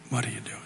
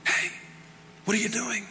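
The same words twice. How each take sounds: First: Much softer, low and gentle; soft voice of God. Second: Soft, higher gentle call. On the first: Acted. God to Elijah, in a low whisper. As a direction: barely breathe the question. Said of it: "the sound of a low whisper". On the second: Retold or imitated. God calling the pastor, soft and gentle. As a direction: coax him quietly. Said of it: "he's going".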